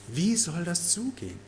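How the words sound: The question sounds amazed and sincerely curious. The asker sincerely wants to know how. The speaker calls it right. "Aus echter Verwunderung und echtem Interesse"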